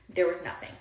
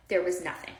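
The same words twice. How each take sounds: The two takes are said the same way.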